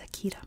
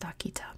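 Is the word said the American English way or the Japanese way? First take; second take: American English; Japanese. First: It is said the American English way. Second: It is said the native Japanese way. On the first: This is how the dog breed is named in America. "the dog in American English is Akita" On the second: This is how the place name is said in Japan. "It's pronounced Akita"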